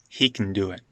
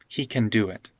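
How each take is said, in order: First: Can shrinks to a glottal stop and n. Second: Can is said with a full k sound. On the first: "it's a simple n. It's like a glottal stop n" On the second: "just go with can, can"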